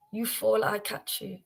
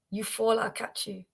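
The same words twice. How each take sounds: The two takes are said the same way.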